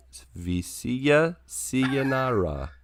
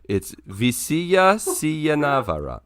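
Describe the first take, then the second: First: "Visia Siyanara" said slowly and carefully; "Visia Siyanara" fixed, softer and slower; corrected pronunciation. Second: "Visia Siyanavara" said slowly with an extra syllable; "Visia Siyanavara" stumbling, with extra syllables; wrong pronunciation. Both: Shown as a demonstration.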